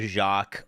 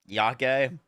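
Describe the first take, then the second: First: The word begins with a J sound. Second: The word begins with a Y sound. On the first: The speaker calls it wrong. "I was calling that skill Jacques" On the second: The speaker calls it right. "isn't the J like a Y sound?"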